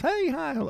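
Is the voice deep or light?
light. It is said in a lighter voice.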